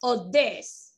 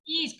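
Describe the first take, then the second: First: "this" with a short lax i, lips relaxed. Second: "This" said as "these", long smiling ee; these with a smile. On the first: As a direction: say "this" short, no smile. ("this" corto, sin sonrisa) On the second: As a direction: spread the lips wide on "This". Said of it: "con la sonrisota". ("This" con la sonrisota, i larga) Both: Shown as a demonstration.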